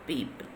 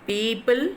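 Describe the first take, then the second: First: People low, soft and falling; unstressed take. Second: People loud, PEO- punched, end rising; stressed first syllable. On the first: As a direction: drop people quietly, without the punch. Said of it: "right side is a wrong mark". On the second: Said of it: "red color alphabet is stressing". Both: Shown as a demonstration.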